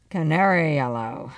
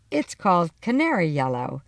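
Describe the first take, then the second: First: Flat disbelieving echo; stunned repetition. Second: Said in the usual way. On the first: A narrator's reading. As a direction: repeat it, not quite believing it. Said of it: "my dad repeated in disbelief". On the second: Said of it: "my mom answered".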